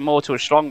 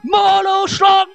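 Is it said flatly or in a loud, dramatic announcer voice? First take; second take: flatly; dramatic announcer. First: It is said flatly, without drama. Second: It is shouted like a dramatic announcer.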